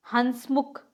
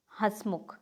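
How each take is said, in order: First: हंसमुख with a full n, hans-mukh; hansmukh, full n before the s in हंसमुख; wrong form. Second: हंसमुख as has-mukh, no full n; soft hasmukh for हंसमुख; correct form. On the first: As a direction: sound a hard n in हंसमुख. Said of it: "कुछ अशुद्ध और साथ में". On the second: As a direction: drop softly onto हंसमुख without a hard n. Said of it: "ही है इसके शुद्ध". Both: Shown as a demonstration.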